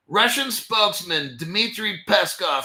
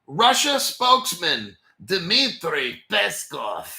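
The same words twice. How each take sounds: First: Said in the usual way. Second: Slow, deliberate put-on Russian accent. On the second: Host naming a Kremlin spokesman in a slow mock Russian accent. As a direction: put on a Russian accent, one heavy word at a time. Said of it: "that's my Russian accent".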